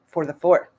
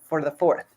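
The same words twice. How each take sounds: The two takes are said the same way.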